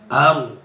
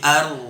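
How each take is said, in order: First: The r is said with rounded, pushed-out lips. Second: The r is said with the tongue, lips unrounded. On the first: The speaker calls it wrong. "ro-nya jangan sampai ar, tidak boleh mencucu" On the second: The speaker calls it right. "tapi ar"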